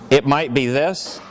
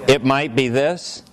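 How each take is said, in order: The two takes are said the same way.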